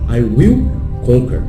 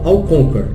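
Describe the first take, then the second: First: The verb 'will' is said in full, separately. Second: The verb 'will' is contracted to 'I'll'. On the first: Strong determination that it will really happen. "você está passando aquela ideia que, pô, eu vou conquistar mesmo" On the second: A plain statement of what will happen. "Então você fala I'll conquer, beleza, eu conquistarei"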